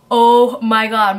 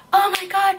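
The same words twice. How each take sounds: First: Loud, drawn-out "oh my God"; acting out your own panic, heavy and slow; freaking out. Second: High-pitched imitation of a panicking friend; friend freaking out. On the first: Storyteller recalling seeing the man approach her car, acted freak-out. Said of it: "I'm freaking out, I'm like". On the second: Friend in the car spotting a gun, imitated high panic. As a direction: squeal it as the terrified friend. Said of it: "my friend's freaking out".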